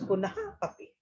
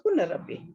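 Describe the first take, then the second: First: The two words are said as separate words. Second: The two words merge into one with an r. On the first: "It's a punha api" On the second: "when you do the sandhi, it becomes a punarapi"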